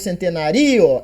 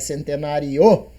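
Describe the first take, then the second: First: The final I is louder than the O. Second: The final O is louder than the I. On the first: The speaker calls it wrong. "Eu não falo centenário" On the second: The speaker calls it right. "é centenário, né? Então o I é menos e o O é mais"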